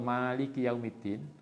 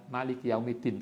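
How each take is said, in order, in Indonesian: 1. Vokal pertama Maliki dibaca panjang. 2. Vokal pertama Maliki dibaca pendek.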